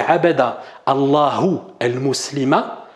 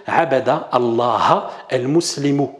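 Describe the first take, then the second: First: «Allahu» with a final u and «el-Muslima» with a final a, said slowly as the mistake; wrong vowel endings. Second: «Allah» without a final u and «el-Muslimu» ending in u, said slowly; correct vowel endings. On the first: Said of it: "t'as mis à Allah une damma". (la mauvaise version, «Allahu» en u et «el-Muslima» en a) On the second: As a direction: give the right version, «el-Muslimu» with its final u. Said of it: "il aurait fallu dire". (la bonne version, «Allah» sans u final et «el-Muslimu» avec un u final) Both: Shown as a demonstration.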